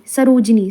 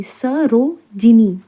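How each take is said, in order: First: Said in the usual way. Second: Sarojini very slowly, split as स, रो, जिनी; syllable by syllable. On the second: Shown as a demonstration. Teacher dictating a spelling word, slow syllable by syllable. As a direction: stretch Sarojini into separate pieces.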